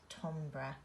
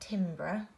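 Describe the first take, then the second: First: The word is pronounced differently from its spelling. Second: The word is pronounced just as it is spelled. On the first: The speaker calls it right. "it's actually said timbre" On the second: The speaker calls it wrong. "that's how you would phonetically sound it out"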